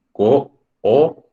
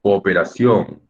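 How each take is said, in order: First: "cooperación" in slow, separate syllables. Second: Said in the usual way. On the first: Shown as a demonstration. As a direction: split co, o, pe, ra, ción with clear gaps. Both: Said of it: "cómo sería el silabeo".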